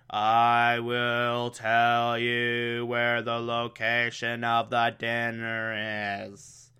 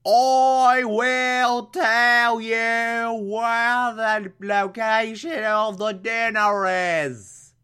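First: Slow, soft trance-like monotone; a hint of a hypnotized drone, slowed right down; brainwashed drone. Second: Very slow, high British accent, hammed up. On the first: Alfred under mind control, slow soft monotone. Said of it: "makes him say". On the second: Redoing Alfred's brainwashed line as British, slow high accent. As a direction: overdo a posh British trance voice. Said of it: "he's British, so it'd be more like".

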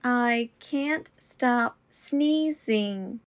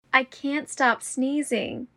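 First: Slow and deliberate. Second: Said in the usual way. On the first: Shown as a demonstration. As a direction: say it slowly and clearly. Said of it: "repetition drill, slowed take". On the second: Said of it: "repetition drill, normal take".

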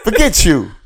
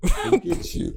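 First: Loud, high mock dub voice; censored dub line. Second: Airy, much higher squeak; breathy mock dub; censored dub line. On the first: Mocking the dubbed voice to his friend, loud and high. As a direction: ham up the TV edit. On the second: Mocking the dubbed voice again, high and unvoiced.

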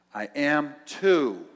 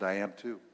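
First: Stubborn insistence. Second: Said in the usual way. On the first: Retold or imitated. Woman insists louder, slowly.

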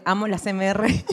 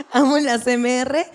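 First: Said in the usual way. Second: "Amo la C M R" laughed slowly with a put-on voice; mock adoring, laughing; laughing, drawn out. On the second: Shown as a demonstration. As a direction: repeat it slowly through laughter, mock-gushing.

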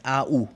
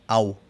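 First: Said in the usual way. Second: "au" blended into one gliding syllable; diphthong. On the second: Shown as a demonstration. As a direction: say "au" as one joined German diphthong. («au» como un solo diptongo alemán) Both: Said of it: "El tercer diptongo".

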